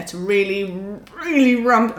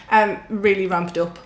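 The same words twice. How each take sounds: First: Words pushed through clenched teeth; talking through teeth. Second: Said in the usual way. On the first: Real, not acted. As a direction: speak through gritted teeth. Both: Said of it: "I'm talking through my teeth now".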